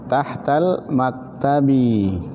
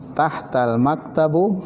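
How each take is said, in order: First: The last word ends with an i vowel. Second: The last word ends with a u vowel. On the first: The speaker calls it right. "Tapi dibaca apa?" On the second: The speaker calls it wrong. "Jadi jangan dibaca apa?"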